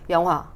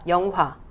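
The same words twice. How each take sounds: First: The second syllable's vowel is said carelessly. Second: The second syllable's vowel is said distinctly. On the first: The speaker calls it wrong. "대충 영화 이게 아니라" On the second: The speaker calls it right. "영화 이렇게"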